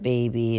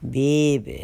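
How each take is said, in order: First: It is said the ordinary standard way. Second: It is said the New Orleans way, like 'bey-bh'. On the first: The speaker calls it wrong. "It's not baby" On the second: The speaker calls it right. "it's B-E-Y-B-H. That's how I would spell it"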